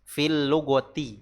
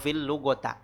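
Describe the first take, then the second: First: The last word ends in an i vowel. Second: The last word ends in an a vowel. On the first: The speaker calls it right. "huruf terakhir dari kalimat yang datang setelah huruf jar dibaca kasroh" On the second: The speaker calls it wrong. "atau fil lugota"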